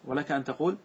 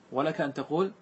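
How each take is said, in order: Both takes have the same delivery.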